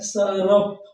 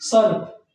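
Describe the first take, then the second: First: A short vowel sounds between the r and p. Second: The r is joined directly to the p. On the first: "इसको हम पानी की तरह बिल्कुल rhythm में पढ़ते हैं, स्मूथली पढ़ते हैं" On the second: "ना कि सर्प"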